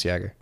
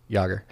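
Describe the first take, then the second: First: "Jagger" as "Yagger", flat A as in cat; short A. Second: "Jagger" as "Yahger", open AH vowel; broad A. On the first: Host trying a surname, "Jagger" said as "Yagger". Tries surname, then corrects vowel. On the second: Host correcting himself on a surname, "Jagger" said as "Yahger". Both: Shown as a demonstration.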